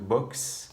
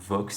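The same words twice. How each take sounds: First: The word is said with a Spanish pronunciation. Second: The word is said with a French pronunciation.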